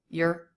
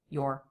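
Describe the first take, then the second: First: The vowel is a reduced schwa before R. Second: The vowel is a full aw before R. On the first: "the schwa R" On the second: "the aw vowel plus R"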